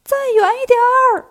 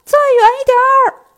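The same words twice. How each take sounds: First: High, loud shout from far off; shouting from afar. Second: Very high, very loud call from far off; louder shout from afar. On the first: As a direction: call out from a long way away. (远远地高声喊) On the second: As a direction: yell it even harder across the distance. (更大声地远远喊叫) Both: Acted. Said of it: "又听见孙悟空喊".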